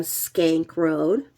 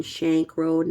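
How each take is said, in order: First: "Skank Road" said slowly with a sk sound; slow "Skank Road", the slip before the fix; misspoken Skank. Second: "Shank Road" said with a sh sound; corrected Shank. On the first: Reading out the street name wrongly as "Skank Road". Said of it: "Oh no, I mean Shank Road". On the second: Correcting herself to "Shank Road" for viewers. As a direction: fix the slip to "Shank Road". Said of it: "I mean Shank Road". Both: Real, not acted.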